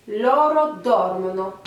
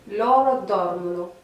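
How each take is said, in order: First: Loro dormono slowly, dor of dormono stressed; teacher stressing dormono on dor; stress on the first syllable. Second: Loro dormono repeated, dor of dormono stressed; teacher repeats dormono on dor; stress on the first syllable. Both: Shown as a demonstration. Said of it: "on accentue un peu plus la première syllabe".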